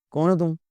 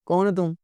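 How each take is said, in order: Both takes have the same delivery.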